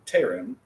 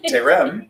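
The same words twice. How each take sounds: First: Terem with the weight on its first syllable; stress on first syllable. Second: Terem high and loud, weight on the second syllable; stress on last syllable. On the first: Teacher slips on a non-segolate, terem stressed up front. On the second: Teacher corrects own slip, Terem stressed on the end. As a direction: push the end of Terem upward. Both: Shown as a demonstration. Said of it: "I did it wrong".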